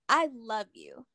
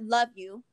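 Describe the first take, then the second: First: It is said fully and wholeheartedly. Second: It is said casually and offhandedly.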